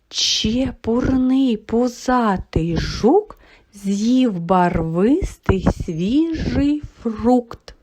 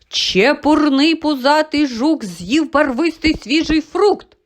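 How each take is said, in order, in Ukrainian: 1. Його вимовляють повільно. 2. Його вимовляють швидко і голосно. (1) "але вже повільно" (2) "Ось так швидко ми з вами її промовили"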